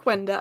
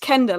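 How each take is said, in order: First: The name begins with a G sound. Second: The name begins with a K sound. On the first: The speaker calls it wrong. "I kept saying Gwenda and they were like, no" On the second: The speaker calls it right. "Like imagine it's a K, not a Q U"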